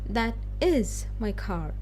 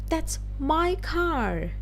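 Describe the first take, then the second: First: The word "is" carries the main stress. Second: The word "my" carries the main stress. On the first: It insists the claim is true despite denial. "So you're stressing on is" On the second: It belongs to me, not to you. "here you're talk talking about ownership"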